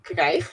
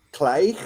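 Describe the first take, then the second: First: "Krijg?" with a hard guttural ch at the end; Dutch pronunciation. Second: "Krijg?" with a rough morning-cough throat sound; throaty attempt. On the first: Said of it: "Yes, good". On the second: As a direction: try "Krijg?" with a hoarse throaty g. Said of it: "Let me channel my inner, like, morning cough". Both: Shown as a demonstration.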